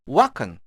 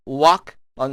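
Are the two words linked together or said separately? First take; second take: linked; separately. First: The final k runs straight into the vowel. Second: The two words are said separately. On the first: "walk와 리 소리가 붙어서 날 수도 있습니다" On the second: "어떤 원어민은 walk on Saturday 이렇게 발음할 수도 있고요"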